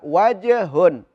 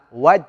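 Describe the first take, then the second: First: The j sound is bounced with a slight echo. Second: The j sound stops flat without a bounce. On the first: The speaker calls it right. "harus baca wajhun" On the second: The speaker calls it wrong. "Nggak boleh dibaca waj"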